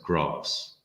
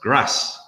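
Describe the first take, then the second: First: It is said with a southern English accent. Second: It is said with a northern English accent.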